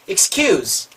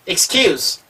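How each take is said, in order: Both takes have the same delivery.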